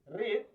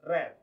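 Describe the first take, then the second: First: The vowel is long, like 'reed'. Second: The vowel is short, like 'red'. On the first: It is the present form. "how to pronounce it will be different" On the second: It is the past form. "For verb two, we say read"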